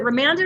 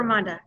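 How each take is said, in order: First: Ramanda, middle vowel as in "hand"; Ramanda with short A. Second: Ramanda, middle vowel as in "father"; Ramanda with broad A. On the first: Host checking a participant's name, Ramanda said ruh-MAN-duh. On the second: Host checking a participant's name, Ramanda said ruh-MAHN-duh. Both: Shown as a demonstration. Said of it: "is it Ramanda or Ramanda".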